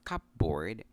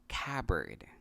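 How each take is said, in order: First: The P sound is pronounced in the middle. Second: The P sound is silent in the middle. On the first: The speaker calls it wrong. "We often pronounce this word as cupboard" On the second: The speaker calls it right. "The P is silent in this word"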